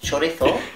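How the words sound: It is said with a Spanish accent.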